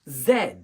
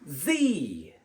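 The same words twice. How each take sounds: First: The letter is pronounced zed. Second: The letter is pronounced zee. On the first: "This is in British English" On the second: "But in American English, they say Z"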